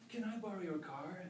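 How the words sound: It is said with strong, heartfelt feeling.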